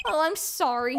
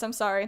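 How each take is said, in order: First: Apologetic clown character voice; lightly voiced clown; put-on clown voice. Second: Said in the usual way. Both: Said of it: "what I'm doing with this voice".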